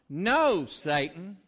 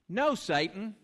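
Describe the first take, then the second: First: It is said loudly and with strong force. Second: It is said at an ordinary, moderate strength. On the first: "really nice and strong" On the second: "Say that with me"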